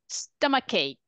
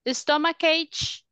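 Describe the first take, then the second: First: The word ends with a k sound. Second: The word ends with a ch sound. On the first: The speaker calls it right. "we say k, not ch" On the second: The speaker calls it wrong. "we say k, not ch"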